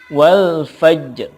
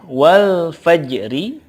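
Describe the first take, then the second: First: The phrase ends on a faint consonant. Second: The phrase ends with a short vowel. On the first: Reading stops on the word. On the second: Reading continues past the word.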